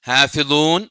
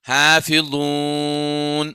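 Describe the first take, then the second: First: The final long vowel is held briefly. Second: The final long vowel is held very long. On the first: "രണ്ട് ഹർക്കത്ത് ഓതാം" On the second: "ആറ് ഹർക്കത്ത് വരെയും നീട്ടാം"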